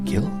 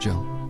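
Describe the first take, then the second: First: The name begins with a hard G sound. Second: The name begins with a soft J sound. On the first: "gills on a fish is spelled G I L L" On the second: "G before I makes the G a soft G, so Jill"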